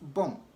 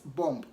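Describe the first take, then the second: First: The final B is silent. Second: The final B is clearly sounded. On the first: The speaker calls it right. "without the B at the end" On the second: The speaker calls it wrong. "it is wrong to pronounce B O M B as bomb"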